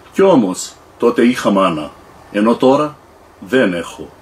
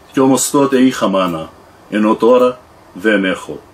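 No difference in how they are said.

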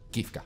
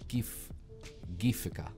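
First: The word is said with two syllables. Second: The word is said with three syllables. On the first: "So it's like Gifka" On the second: "That seems wrong. ... that's like an extra syllable"

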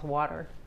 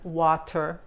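First: It has an American accent with a D-like T. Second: It has a British accent with a clear T.

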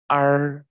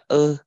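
First: The vowel is said with the tongue curled back. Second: The vowel is plain, without a curled tongue. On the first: The speaker calls it right. "đọc chuẩn phải đọc là r" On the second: The speaker calls it wrong. "các bạn có thể đọc là ơ cũng được"

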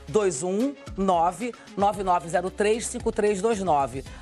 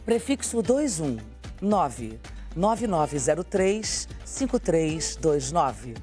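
First: The number is said at normal, quick speed. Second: The number is said slowly and deliberately.

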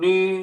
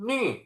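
First: It is said with the first Mandarin tone. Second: It is said with the fourth Mandarin tone. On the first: "เสียงที่1 นี" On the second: "เสียงที่4 นี่"

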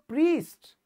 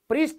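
First: The vowel is a long ee. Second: The vowel is short. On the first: The speaker calls it right. "आप बोलते हो प्रीस्ट" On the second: The speaker calls it wrong. "फिर प्रीस्ट नहीं बोलते कभी भी"

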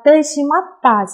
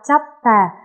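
First: The phrase is said in its full form. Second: The phrase is squeezed into one short word.

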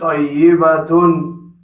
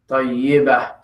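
First: The word ends in a t followed by -un. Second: The word ends in a soft h sound. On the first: Another word follows without a pause. "If you continue, tayyibatun" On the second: The speaker pauses after this word. "when you stop at it, so the tune doesn't sound. So you will say tayyibah"

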